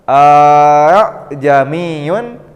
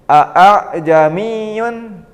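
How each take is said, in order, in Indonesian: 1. Vokal kedua dipanjangkan. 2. Vokal kedua dimulai dengan hentian glotal yang tajam. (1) "dipanjangkan alifnya dibaca panjang seperti mad" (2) "itu kurang pas"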